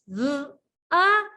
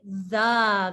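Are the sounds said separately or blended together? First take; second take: separately; blended. First: Each sound is said separately with a break. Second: The sounds run together as one word. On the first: "Touch your sounds" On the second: "blend it"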